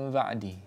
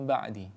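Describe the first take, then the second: The two takes are said the same way.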